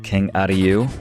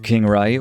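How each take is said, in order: First: The name is said closer to its original pronunciation. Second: The name is said with a plain anglicized reading. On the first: "Maybe to pronounce it a bit more faithfully" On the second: "as I learned it as a child phonetically"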